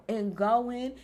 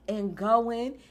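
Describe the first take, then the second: No difference in how they are said.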